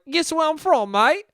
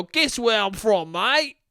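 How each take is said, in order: First: High, badly faked British-Australian accent; pitched-up caricature of a British-Australian dude; muddled mock accent. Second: Slow, lilting bad Australian accent, lifting at the end; badly faked Australian dude; muddled Australian accent. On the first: Foreign dude quizzing a stranger, muddled high British-Australian accent. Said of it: "and they'll be like". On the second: Australian dude quizzing a stranger, muddled Australian accent. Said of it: "I don't even know what accent I'm doing".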